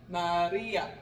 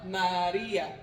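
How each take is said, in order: Both takes have the same delivery.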